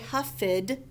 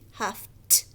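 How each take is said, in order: First: The ending is an extra ED syllable. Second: The ending is a short T sound. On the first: The speaker calls it wrong. "We don't say huffed" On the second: The speaker calls it right. "it sounds like T"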